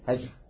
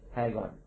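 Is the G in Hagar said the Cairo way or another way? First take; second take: other; Cairo. First: The G is said a non-Cairo way. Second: The G is said the Cairo way. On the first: "But we say Hagar. Different way to pronounce the G" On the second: "in Cairo, Egypt, they also say Hagar"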